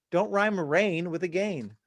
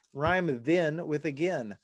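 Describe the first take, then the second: First: "again" said to rhyme with "rain"; slow, with "again" as a-GAIN; forced rhyme pronunciation. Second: "again" said to rhyme with "then"; slow, with "again" as a-GEN; natural pronunciation. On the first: Songwriter scolding lyric writers, "again" said like rain. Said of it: "No one says again". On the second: Songwriter giving the better rhyme, "again" said like then. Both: Shown as a demonstration.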